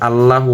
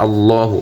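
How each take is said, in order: First: "আল্লাহু" with a thin, light L and front "a"; wrong pronunciation. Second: "আল্লাহু" with a heavy L and long, rounded "aw"; correct pronunciation. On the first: Teacher rejecting a mistake, "আল্লাহু" with a thin L. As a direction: say "আল্লাহু" quickly with a flat, light "লা". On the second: Teacher correcting learners, "আল্লাহু" with a heavy, rounded L. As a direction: say "আল্লাহু" with a full, dark "লা". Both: Shown as a demonstration. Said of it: "আল্লাহু হবে না".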